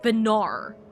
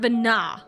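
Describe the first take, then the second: First: The name ends with an R sound. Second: The name ends with a plain vowel. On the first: "sounded like there was a R at the end of it" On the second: "not Vina"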